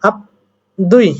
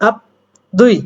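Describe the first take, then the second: No difference in how they are said.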